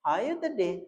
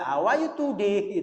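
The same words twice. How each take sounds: First: How are you today? dengan lafal luwes penutur asli; How are you today? diucapkan ringan; native English. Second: How are you today? dengan lafal kaku ala anak SD; How are you today? dieja pelan dan kaku; schoolkid English. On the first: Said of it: "orang Inggris pun nyebutnya". (How are you today? ala orang Inggris) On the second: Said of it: "Nah itu anak S D". (How are you today? gaya anak SD) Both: Shown as a demonstration.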